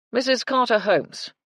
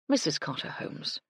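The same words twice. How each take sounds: First: High, loud public announcement. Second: Soft, clear and ringing; a hint of a soft, chiming voice; bell-like tones. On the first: Acted. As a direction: call the name across the lobby. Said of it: "announced to anyone within earshot". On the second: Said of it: "in what could only be called bell-like tones".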